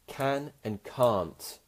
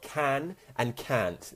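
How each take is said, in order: First: It is said in a standard RP English accent. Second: It is said in a West Country Bristol accent. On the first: "If you want to speak in a more R P accent, you'd say" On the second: "That's a Bristol accent. That's a, a West Country English accent"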